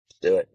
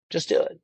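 First: "Just do it" barked out louder, stress on "do"; punchy slogan. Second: Breathy whispered "Just do it", no voice at all; whispered slogan. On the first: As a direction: slam "Just do it" home like an ad. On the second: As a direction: whisper "Just do it" like a secret ad line. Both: Pretend. Repeating slogan, whispered then loud.

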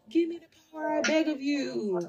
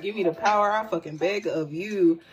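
First: Chucky. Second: Said in the usual way. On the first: Acted. Reader jokingly quotes a horror doll begging for power, high creepy chant. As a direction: put on an eerie high voice, pleading quietly. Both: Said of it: "why did Chucky come to my mind?".

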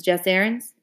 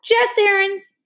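First: Said in the usual way. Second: Much higher startled cry through milk; garbled by milk. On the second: A narrator's reading. Leslie crying out at Jess, milk in her mouth. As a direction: shout his name with a mouthful of milk. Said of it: "The name was garbled by the milk".

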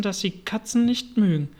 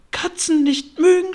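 First: Said in the usual way. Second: High, loud outraged mouse shriek; furious squealing mouse, far above normal pitch; screeching, furious. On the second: A narrator's reading. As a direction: screech it back in disbelief. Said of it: "schrie die Maus mit kreischender, wütender Stimme".

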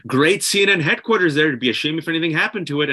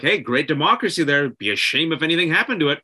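First: Mock mobster menace, a bit higher; sweetly veiled threat, a bit quicker; smiling threat. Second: Smiling threat. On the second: Retold or imitated. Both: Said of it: "almost a situation where".

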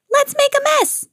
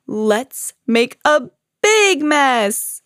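First: Very high, excited bird voice; high storybook glee; gleeful exclamation. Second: Very slow, drawn-out cry swelling on "big"; big, gleeful storybook bear cry; exuberant cry. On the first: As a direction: squeal it with mischief, pitched way up. Bird gleefully joins the mess. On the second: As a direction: stretch every word, punch "big mess" high. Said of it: "cried Bear". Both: A narrator's reading.

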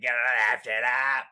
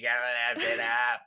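First: Mock JFK accent. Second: Lightly voiced Kennedy Boston accent; imitating JFK, tongue in cheek; JFK impression. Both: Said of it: "it's like J F K".

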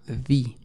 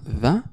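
First: The said as "thee", like "ði"; long ee in the. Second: The said as "thuh", like "ða"; short schwa the. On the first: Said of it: "o se pronunciaba the". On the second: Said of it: "se pronunciaba the". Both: Shown as a demonstration.

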